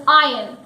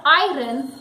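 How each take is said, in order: First: "iron" as EYE-un, silent r; correct iron. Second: "iron" with the r sounded, EYE-run; spelling pronunciation. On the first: Teacher gives the correct word, "iron" as EYE-un. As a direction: drop the r in "iron", gliding to "un". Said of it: "it is iron". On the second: Teacher rejects a mistake, "iron" as EYE-run. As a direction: sound the r before the vowel in "iron". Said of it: "it is not iron". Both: Shown as a demonstration.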